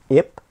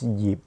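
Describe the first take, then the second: First: The name begins with a bare vowel sound. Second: The name begins with a Y sound. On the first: The speaker calls it wrong. "not Ip in Cantonese" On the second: The speaker calls it right. "to pronounce it correctly is Yip"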